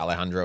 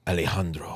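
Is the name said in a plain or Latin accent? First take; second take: plain; Latin. First: It is said in his plain accent. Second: It is said in a deep Latin accent.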